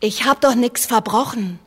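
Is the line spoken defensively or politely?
politely. It is spoken politely, as if to a doctor. The speaker is addressing a respected gentleman. The speaker calls it wrong. "nicht ein Herr Doktor"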